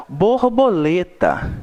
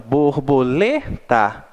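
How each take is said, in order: First: Borboleta said slowly as one whole word; slow model pronunciation. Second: Borboleta split bor-bo-LE-ta, weight on LE; syllable by syllable. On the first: Teacher has pupils pronounce along, slow model word. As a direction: say Borboleta slowly and clearly for repeating. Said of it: "Vamos pronunciar comigo". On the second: Teacher shows syllable division, borboleta split with LE stressed. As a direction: break borboleta into syllables, lean on the third. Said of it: "fazendo aquela separação silábica". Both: Shown as a demonstration.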